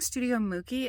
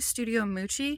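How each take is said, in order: First: The name is said with a 'k' sound. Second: The name is said with a 'ch' sound. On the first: The speaker calls it wrong. "I kept saying Studio Mookie" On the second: The speaker calls it right. "It's actually Studio Moochie"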